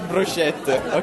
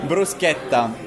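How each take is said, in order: First: It is said the anglicized way. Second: It is said the Italian way. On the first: The speaker calls it wrong. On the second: The speaker calls it right.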